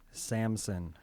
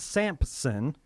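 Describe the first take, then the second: First: The name is said without a p sound. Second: The name is said with a p sound. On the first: The speaker calls it right. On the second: The speaker calls it wrong.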